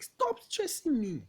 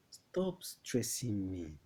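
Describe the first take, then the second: First: High, loud, slow yell of exasperation; exasperated outburst. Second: Said in the usual way. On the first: Acted. Uncle finally answers after fifteen requests, exasperated yell. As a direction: snap after being pestered, voice shooting up. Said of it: "You've laid so much emphasis".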